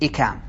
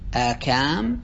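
First: The word begins with a short 'i' sound. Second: The word begins with a long 'aa' sound. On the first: "وبكسر الهمزة بغير مد على وزن جبال" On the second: "بفتح الهمزة تليها مدة، على وزن آصال"

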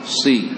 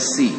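First: The syllable keeps a heavy, thick sound. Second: The syllable has a light, thin sound. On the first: The speaker calls it right. "Jadi ketiga kasrah masih ikut sifat tebalnya" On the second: The speaker calls it wrong. "Jadi jangan lagi dibaca si"

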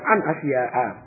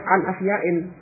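First: The word ends with a plain -a sound. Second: The word ends with an -in sound. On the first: The speaker calls it right. "Yang benar an asya'a. Tidak tanwin" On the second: The speaker calls it wrong. "keliru kalau dibaca misalnya an asya'in"

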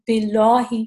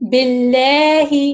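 First: The L is dark and full-mouthed. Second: The L is light, with lips spread. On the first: The speaker calls it wrong. "یہ میں غلط پڑھ رہی ہوں" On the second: The speaker calls it right. "اس لام کو ہم پتلا کر کے پڑھیں گے"

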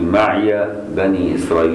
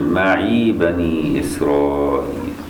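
First: The word maʿi ends with an open -iya. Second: The word maʿi ends with a long -ī. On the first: "بفتح ياء معي دي قراءة حفص" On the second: "باقي القراء يقول"

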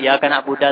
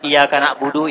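First: The last word ends with an a vowel. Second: The last word ends with an u vowel. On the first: The speaker calls it wrong. "Wa fathidal iya kana buda" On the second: The speaker calls it right. "Mestinya dibaca na'budu"

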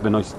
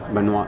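First: The surname is pronounced a non-French way. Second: The surname is pronounced the French way. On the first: The speaker calls it right. "no es francés" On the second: The speaker calls it wrong. "No, no, porque es Benoist"

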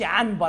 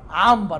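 First: The n before b is pronounced as n. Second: The n before b is pronounced as m. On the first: The speaker calls it wrong. "ما نقولوش عنبر" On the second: The speaker calls it right.

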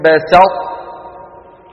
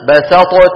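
First: The ṭ is held emphatic, then released as t. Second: The ṭ is fully released with an echo. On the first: "فلا نحن أظهرنا ... ولا نحن أدغمنا" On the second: "أظهرنا فقلنا بسطت"

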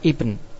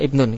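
First: The word stops short without the -un ending. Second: The word ends with the full -un ending. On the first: The reader stops at this word. "Kalau baca wakof kita baca ibn" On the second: The reading continues without stopping. "kita baca enggak wakof ya, baca apa? Baca wasol"

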